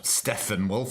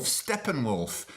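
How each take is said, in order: First: "[name]" said as Steffen-wolf, rising; questioned mispronunciation. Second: "[name]" with a clear P, slow and falling; corrected pronunciation. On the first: Host doubts the band's name, says "[name]" as Steffen-wolf. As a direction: query it with an F sound in "[name]". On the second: Host corrects the band's name, "[name]" with a P sound. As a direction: settle slowly on Steppen-wolf for "[name]". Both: Real, not acted.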